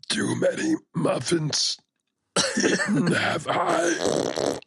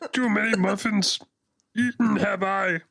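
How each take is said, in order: First: The voice sounds weak, strained and struggling. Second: The voice sounds steady, not weak or struggling. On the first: The speaker calls it right. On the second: The speaker calls it wrong.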